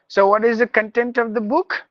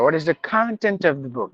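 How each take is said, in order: First: Content is stressed on the second syllable. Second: Content is stressed on the first syllable. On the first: The speaker calls it wrong. "No, that is not the word" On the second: The speaker calls it right. "That's how we have to ask"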